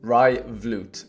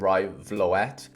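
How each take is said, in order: First: The surname is said with a Dutch-style vowel. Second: The surname is said with an English-style vowel. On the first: The speaker calls it right. "you pronounce it Rai Vloot" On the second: The speaker calls it wrong. "I used to call him Rai Vloet, just because that's how my brain wants to pronounce it"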